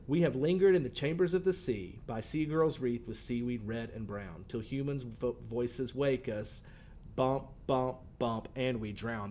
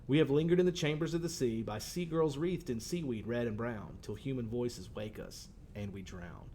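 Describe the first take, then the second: First: Slow, rhythmic reading with "bump, bump, bump" marking the missing beats; showing the class the three missing syllables before "and we drown"; rhythm beaten out. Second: Poem reading. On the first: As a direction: tap out the meter, then let "and we drown" fall short. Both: Shown as a demonstration. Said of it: "Those first two lines have a, a definite rhythm".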